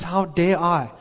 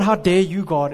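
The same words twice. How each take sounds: First: Humble awe. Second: Mild mock outrage at God; indignant challenge. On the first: Retold or imitated. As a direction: ask it humbly, the right attitude. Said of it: "It's, it's". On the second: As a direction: demand it like an offended complainer. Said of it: "It's not".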